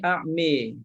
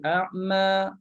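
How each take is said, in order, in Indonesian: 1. Vokal akhirnya condong ke bunyi 'e'. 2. Vokal akhirnya adalah bunyi 'a' terbuka biasa. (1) "Dia bunyi a'mi" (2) "Yang ni dia tak baca imalah"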